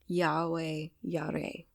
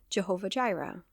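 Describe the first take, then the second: First: Both words begin with a Y sound. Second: Both words begin with a J sound. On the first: The speaker calls it right. "it's something more like" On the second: The speaker calls it wrong. "which is really wrong with its pronunciation"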